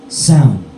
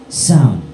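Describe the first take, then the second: The two takes are said the same way.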